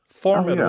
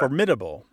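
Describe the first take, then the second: First: The stress is on the first syllable. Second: The stress is on the second syllable. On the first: This is the older pronunciation. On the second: This is the newer pronunciation.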